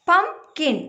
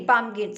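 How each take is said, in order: First: "Pumpkin" as two beats with a clear gap; split syllables. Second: Said in the usual way. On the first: Shown as a demonstration. Teacher demonstrating syllable count, "Pumpkin" broken into two parts. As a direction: separate pum from kin in "Pumpkin". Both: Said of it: "ഒരുമിച്ചല്ല pronounce ചെയ്യുന്നേ".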